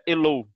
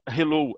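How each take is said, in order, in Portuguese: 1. A palavra começa sem som de H. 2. A palavra começa com som de H. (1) "não falam H. ... é hello" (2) "eles não falam hello"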